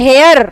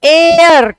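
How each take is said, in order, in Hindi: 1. शब्द की शुरुआत में एक साफ़ h की आवाज़ सुनाई देती है। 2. शब्द सीधे स्वर की आवाज़ से शुरू होता है। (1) "है का साउंड देख के ए लगा देते हैं, जो कि बिल्कुल गलत है" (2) "क्या साउंड आया? ए का"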